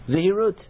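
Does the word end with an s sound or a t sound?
t sound. The word ends with a t sound.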